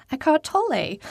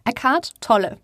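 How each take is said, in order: First: Name in native German pronunciation; German accent. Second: Said with an English accent; anglicised English-accented name. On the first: Speaker who knows German pronouncing the author's name, German accent. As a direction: say Eckhart Tolle with a German accent. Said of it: "don't know how to pronounce his name". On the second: Speaker catches herself saying the German name, English accent. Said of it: "saying it with an English accent". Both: Shown as a demonstration.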